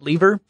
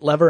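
First: The first vowel sounds like in 'leave'. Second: The first vowel sounds like in 'level'. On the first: This is how the speaker says it. "I pronounce it lever" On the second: This is how the other person says it. "you pronounce it lever"

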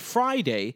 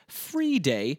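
First: The first syllable sounds like fry. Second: The first syllable sounds like free. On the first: This is the modern pronunciation. "to the fry in Friday" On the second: This is the older medieval pronunciation. "It would have been pronounced something like Friday"

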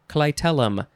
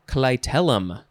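No difference in how they are said.

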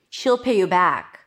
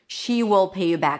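First: 'She will' is contracted into one syllable. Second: 'She will' is said as two full words. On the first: "High E and then just the dark L" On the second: "But you're less likely to hear she will"

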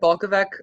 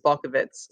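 First: The surname is read out as it is spelled. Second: The surname is said the Slovenian family's way. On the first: The speaker calls it wrong. "I said it Balcovec my entire life" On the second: The speaker calls it right. "say it the right way, which is Balcovitz"

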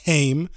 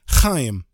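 First: The name begins with a soft h sound. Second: The name begins with a harsh throaty sound. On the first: The speaker calls it wrong. "not Haim" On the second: The speaker calls it right.

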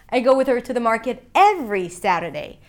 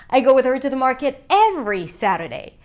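No difference in how they are said.

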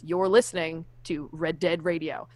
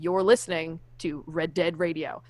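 First: The stress is on Radio. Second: The same.

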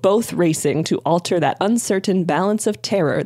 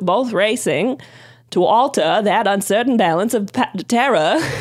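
First: It is spoken in the speaker's ordinary accent. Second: It is spoken in a put-on Boston accent.

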